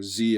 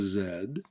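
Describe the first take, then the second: First: The letter is said the American way, 'zee'. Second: The letter is said the British way, 'zed'.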